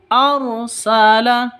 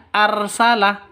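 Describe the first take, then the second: First: Arsala with the r thick and full; right heavy ra. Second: Arsala with the r thin and light; wrong thin ra. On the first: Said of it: "Seperti itu ya". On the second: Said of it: "Bukan arsala". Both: Shown as a demonstration.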